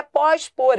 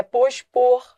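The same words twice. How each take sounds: First: "pós-por" with open, stressed PÓS; wrong open vowel. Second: "pospor" with closed, weak pôs; correct closed vowel. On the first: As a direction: open the ó and hit the first part of "pós-por". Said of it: "Não é pós-por". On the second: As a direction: close the first o of "pospor", stress the end. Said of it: "é pospor". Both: Shown as a demonstration.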